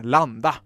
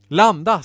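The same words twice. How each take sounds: First: Low, matter-of-fact label reading; lower-pitched, unexcited single word. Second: Loud one-word order; raised-voice landing command; called command. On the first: A narrator's reading. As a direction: read the button text out. Narrator reads the button's text. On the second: Acted. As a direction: call it out to the pilot.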